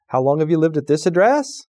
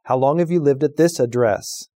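First: The voice rises at the end. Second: The voice falls at the end.

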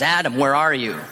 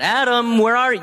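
First: It sounds like a knowing call to account. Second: It sounds like someone searching for a lost person.

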